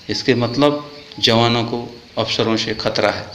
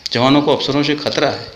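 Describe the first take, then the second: First: Slow, deliberate statement; weighted, slow first take; slow emphatic. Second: Higher, stressed on जवानों with falling end; pressing repeat; raised repeat. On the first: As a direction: spell it out slowly. Repeated line, first take. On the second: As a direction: hammer जवानों once more. Repeated line, second take. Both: Real, not acted.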